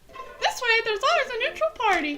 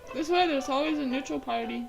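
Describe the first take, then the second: First: It is said in a put-on character voice. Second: It is said in an ordinary, natural voice. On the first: The speaker calls it right. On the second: The speaker calls it wrong.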